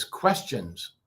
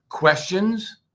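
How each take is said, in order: First: Low falling thoughtful tone; thinking voice. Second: Questioning upward tune; rising questions. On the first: Teacher demos a musing, thinking voice. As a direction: mull it over, tune sinking. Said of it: "just thinking voice". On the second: Teacher demos a questioning rise. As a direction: ask it with a rising lilt. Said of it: "and let's review". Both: Shown as a demonstration.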